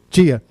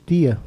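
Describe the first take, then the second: First: It is said with a Fortaleza accent. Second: It is said with a Cariri accent.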